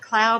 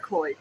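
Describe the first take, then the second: First: The vowel sounds like 'ow' in cloud. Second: The vowel sounds like 'oy' in boy. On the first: "You can either pronounce it Cloud" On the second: "or Cloyd"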